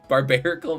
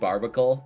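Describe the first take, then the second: First: The name is said with four syllables. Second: The name is said with three syllables. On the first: The speaker calls it right. "Barbarical makes more sense" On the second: The speaker calls it wrong. "I do pronounce it completely wrong"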